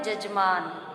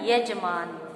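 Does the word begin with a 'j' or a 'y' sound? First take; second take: j; y. First: The word begins with a 'j' sound. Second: The word begins with a 'y' sound. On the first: The speaker calls it wrong. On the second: The speaker calls it right.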